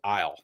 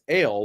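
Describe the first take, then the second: First: The name is said with an 'eye' vowel. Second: The name is said with an 'ay' vowel. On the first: The speaker calls it wrong. "I always thought it was Isle" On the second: The speaker calls it right. "it's it's ale, like ginger ale"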